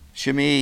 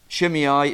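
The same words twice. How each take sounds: First: The name has a Hebrew pronunciation. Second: The name has an English pronunciation. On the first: "which is the Hebrew pronunciation" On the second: "Shimei is the English way"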